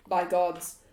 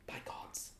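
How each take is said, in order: First: Firm, louder in-character oath; emphatic exclamation. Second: Hushed, whispered oath. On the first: Game master voices Strahd's outburst, emphatic exclamation. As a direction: exclaim it firmly. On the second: Trying out Strahd's line, whispered. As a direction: say it under your breath. Repeats the oath under breath. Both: Acted.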